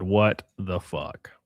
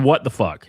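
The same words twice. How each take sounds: First: Drawn out very slowly and low; slow, stunned. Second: Said in the usual way. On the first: Shown as a demonstration. Streamer re-reading her reply, slow and stunned. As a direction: let each word hang in disbelief.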